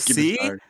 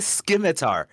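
First: The word begins with a plain s sound. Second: The word begins with a hard sk sound. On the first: The speaker calls it right. "The scimitar. C is" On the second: The speaker calls it wrong. "Do not say scimitar"

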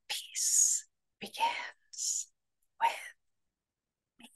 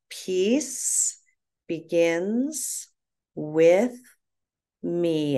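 First: It is said in a whisper. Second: It is said aloud in a full voice.

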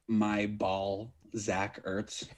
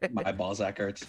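First: The phrase is said at a slower pace. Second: The phrase is said very fast. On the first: "I didn't understand the first time" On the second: "when you said it really fast"

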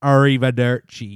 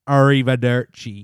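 First: It is said in a strong Italian accent. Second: It is said in a strong Italian accent.

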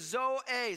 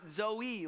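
First: It is said unlike the girl's name. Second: It is said like the common girl's name. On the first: The speaker calls it right. "the correct way we pronounce this is Zoe" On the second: The speaker calls it wrong. "like it's a 4-year-old girl"

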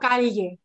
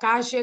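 First: The ll is said as a palatal lateral. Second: The ll is said the Argentine way. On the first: "sino calle" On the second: "calle como en Argentina"

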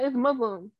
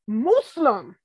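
First: The word is said in a plain, casual way. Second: The word is over-enunciated with drawn-out vowels. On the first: The usual everyday way of saying it. The speaker calls it right. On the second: An older relative's way of saying it. The speaker calls it wrong.

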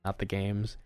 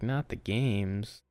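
First: It is said in a plain, neutral tone. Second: It is said in a mocking, sarcastic tone.

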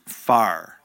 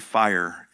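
First: The word is said with a Texan accent. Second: The word is said with a standard accent.

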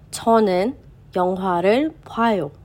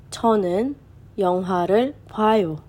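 The two takes are said the same way.

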